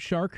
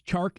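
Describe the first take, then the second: First: The name begins with an 'sh' sound. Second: The name begins with a 'ch' sound. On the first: "not Shark" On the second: "it's Chark and not Shark"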